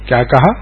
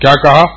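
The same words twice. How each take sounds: First: It sounds like a puzzled, genuine question. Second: It sounds like an angry, challenging retort. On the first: The listener did not hear and wants it repeated. "ایسے کان پہ ہاتھ رکھ کے فرمایا" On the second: The listener is offended by what was said. "آنکھ نکال کے ایسے ذرا سینہ تان کر فرمایا"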